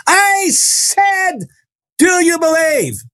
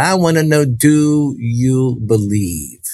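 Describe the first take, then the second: First: Very high, stretched-out cry; imitated fierce demand. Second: Drawn-out, word-by-word challenge; deliberate questioning. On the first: Healer spinning round to challenge the boy, high demanding cry. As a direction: cry the question out high, drawing out each word. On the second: Retold or imitated. Healer up close asking the boy for faith, slow and deliberate. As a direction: stretch the question out very slowly.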